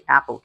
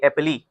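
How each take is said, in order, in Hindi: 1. इस शब्द के अंत में 'l' ध्वनि है। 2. इस शब्द के अंत में 'ee' स्वर है। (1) "हम इसे एप्पल कहते हैं" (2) "अगर हमें फोनोलॉजी का पता नहीं होता, तो हम कहते एप्पली"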